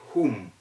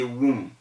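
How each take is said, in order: First: The word begins with a breathy H sound. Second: The word begins with a W sound. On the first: The speaker calls it right. "and then you say whom" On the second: The speaker calls it wrong. "You can't say whom"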